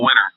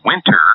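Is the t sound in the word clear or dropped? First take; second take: dropped; clear. First: The t sound is dropped or slurred. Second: The t sound is clearly pronounced. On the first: The speaker calls it wrong. "you might be lazy and say" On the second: The speaker calls it right. "which is winter"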